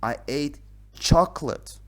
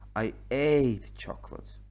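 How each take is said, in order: First: The stress is on the word chocolate. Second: The stress is on the word ate.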